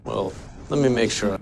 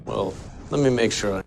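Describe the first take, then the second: Both takes have the same delivery.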